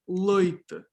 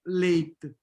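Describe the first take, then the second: First: The first vowel sounds like 'oi'. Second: The first vowel sounds like 'ay'. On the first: "you have leite" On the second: "you don't have leite"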